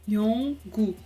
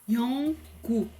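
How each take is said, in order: No difference in how they are said.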